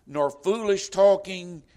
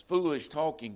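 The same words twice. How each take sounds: First: "talking" stretched slow and loud with a falling close; solemn scripture reading. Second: Said in the usual way. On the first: Acted. Preacher reading the verse aloud to the congregation, slow and louder. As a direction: proclaim "nor foolish talking" like a verse from the pulpit. Scripture quoted, then repeated plainly.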